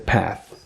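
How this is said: It is said in an American accent.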